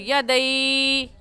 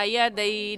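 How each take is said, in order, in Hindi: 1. आख़िरी स्वर खिंचा हुआ है। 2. आख़िरी स्वर छोटा और नरम है। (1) "खींच कर पढ़ना गलत होगा" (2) "सही है"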